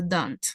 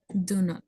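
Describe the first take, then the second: First: The words are joined into one contracted syllable. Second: Two separate words are said, do and not. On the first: "unido se pronuncia don't" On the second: "separado se pronuncia do not"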